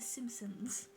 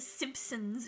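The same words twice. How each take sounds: First: No P sound is heard after the M. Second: A P sound is heard after the M. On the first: The speaker calls it right. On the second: The speaker calls it wrong.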